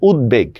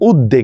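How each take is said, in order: First: The b sound is clearly pronounced in the word. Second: The b sound is dropped from the word. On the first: The speaker calls it right. "এটা হচ্ছে উদ্বেগ" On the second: The speaker calls it wrong. "আমরা অনেকে এটার উচ্চারণ করে উদ্বেগ, এটা উদ্বেগ হবে না"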